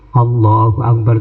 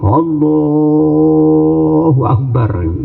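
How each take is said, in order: First: The vowel in Allah has normal length. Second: The vowel in Allah is drawn out long. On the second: "kadang-kadang didawakan"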